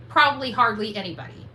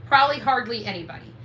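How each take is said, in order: Both takes have the same delivery.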